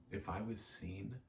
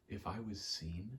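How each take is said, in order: Both takes have the same delivery.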